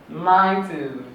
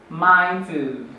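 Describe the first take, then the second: Both takes have the same delivery.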